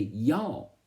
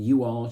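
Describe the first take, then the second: First: It is said in a Southern accent. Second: It is said in a plain, non-Southern accent.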